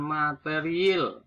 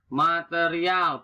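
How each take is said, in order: First: "material" ending in il; nonstandard pronunciation. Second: "Material" ending in al; standard pronunciation. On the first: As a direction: say "material" slowly as ma-te-ri-il. (ucapkan "material" menjadi materiil) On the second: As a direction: say ma-te-ri-al for "Material", slowly. (ucapkan "Material" berakhiran al) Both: Shown as a demonstration. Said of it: "bukan material".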